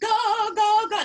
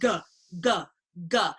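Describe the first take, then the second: First: The voice sounds polished and pretty. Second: The voice sounds rough and unpolished. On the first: The speaker calls it wrong. "You're making a mistake if you're going" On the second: The speaker calls it right. "No, we just want"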